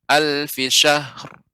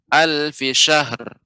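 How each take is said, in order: First: The final h is held smoothly, not bounced. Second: The final h is bounced with an echo. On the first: The speaker calls it right. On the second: The speaker calls it wrong.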